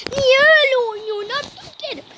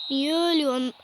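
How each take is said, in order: First: Higher and louder, scolding the player; exasperated yell. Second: Said in the usual way. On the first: Real, not acted. Boy shouting at his game player Abdülkerim, exasperated. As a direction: yell at your own footballer for playing badly.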